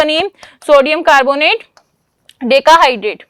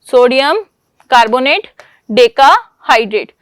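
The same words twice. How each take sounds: First: Said in the usual way. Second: sodium, carbonate, decahydrate each on its own with pauses, last one slower and falling; spelled out word by word. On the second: Shown as a demonstration. Teacher to class, dictating the compound name slowly word by word. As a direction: break sodium carbonate decahydrate into slow separate words.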